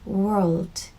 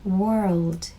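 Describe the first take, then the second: First: It is said in an American accent with R. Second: It is said in an American accent with R.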